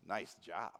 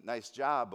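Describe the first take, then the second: First: Low, softer sarcastic praise. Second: Straightforward sincere compliment; sincere praise. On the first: Passer-by who sees a total mess, sarcastically. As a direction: drop it low and mean the opposite. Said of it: "with the tone of their voice". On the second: Passer-by praising work on your car, sincerely. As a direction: say it like you mean it. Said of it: "they might mean". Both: Shown as a demonstration.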